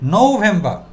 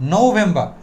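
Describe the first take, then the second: First: The final r sound is silent. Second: The final r sound is silent.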